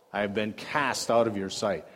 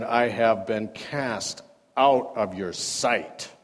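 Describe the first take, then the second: First: Said in the usual way. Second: Slow reading. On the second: Shown as a demonstration.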